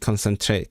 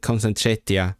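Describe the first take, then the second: First: Concentrate said the plain English way. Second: Concentretia with a Welsh ending, k-o-n-s-e-n-t-r-e-t-i-a; Welsh dialect form. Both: Shown as a demonstration.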